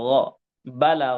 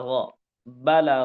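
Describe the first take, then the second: Both takes have the same delivery.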